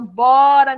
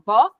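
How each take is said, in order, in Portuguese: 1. Só duas sílabas da frase são ditas. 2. Só uma única sílaba da frase é dita. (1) "Aí lá no final" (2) "Aí no final"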